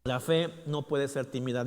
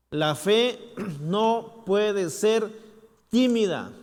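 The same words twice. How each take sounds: First: Said in the usual way. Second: Loud, slow, each word driven; emphatic proclamation. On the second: Shown as a demonstration. Preacher declaring to the church, loud and slow. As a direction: declare it with force. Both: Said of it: "repeated line".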